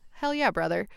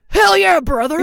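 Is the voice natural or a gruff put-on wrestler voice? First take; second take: natural; put-on. First: It is said in a fairly natural voice. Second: It is said in a gruff put-on wrestler voice. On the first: The speaker calls it wrong. "that's not a Hulk Hogan voice" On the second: The speaker calls it right. "Yeah, there you go. Lovely"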